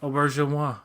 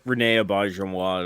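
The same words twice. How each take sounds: First: Auberjonois, oh-bar-zhon-WAH with a falling end; French pronunciation. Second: Auberjonois said the French way, oh-ber-zhon-WAH; French pronunciation. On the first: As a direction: Auberjonois stressed on the last syllable. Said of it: "that's exactly it". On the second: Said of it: "I say it like". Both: Shown as a demonstration.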